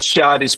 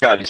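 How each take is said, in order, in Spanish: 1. El nombre empieza con un sonido 'ch'. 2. El nombre empieza con un sonido 'k'. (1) "lo pronunciamos Charis por el C H" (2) "yo les aconsejo que lo pronunciemos Caris"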